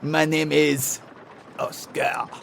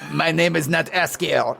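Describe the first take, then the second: First: Oscar is pronounced the French way. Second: Oscar is pronounced the plain English way. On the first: The speaker calls it right. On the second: The speaker calls it wrong.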